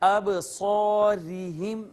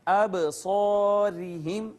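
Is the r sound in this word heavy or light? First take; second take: heavy; light. First: The r is said heavy and full-mouthed. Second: The r is said light and thin. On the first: The speaker calls it wrong. "यूं नहीं पढ़ेंगे। अब सौरिहिम नहीं कहेंगे" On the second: The speaker calls it right. "बारीक करेंगे और पढ़ेंगे"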